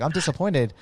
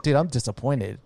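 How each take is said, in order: First: A hint of the coach's flat, blunt verdict; lightly voiced disappointed coach; blunt disappointed mentor. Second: Said in the usual way. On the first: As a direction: say it like a mentor who is let down, straight to the face. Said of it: "but he was like". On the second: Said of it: "I'm just, like, summarizing this".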